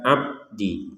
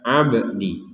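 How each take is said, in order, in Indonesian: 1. Bunyi b tertutup tanpa pantulan sama sekali. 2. Bunyi b memiliki pantulan pendek bergema. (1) "Jangan sekedar abdi" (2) "Ada bak sukun dibaca abdi"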